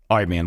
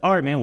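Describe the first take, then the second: First: It is said in a low, flat, brazen monotone. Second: It is said softly in a lively, bubbly tone. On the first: "he dropped his tone, went monotone with me" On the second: "it wasn't soft and bubbly like I just did"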